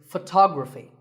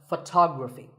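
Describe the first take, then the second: No difference in how they are said.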